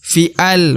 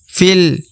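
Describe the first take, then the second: First: The vowel before l is kept, making two syllables. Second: The letter runs straight into l, one syllable. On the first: The speaker calls it wrong. "bukan fi'al" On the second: The speaker calls it right. "huruf fi langsung masuk ke huruf lam"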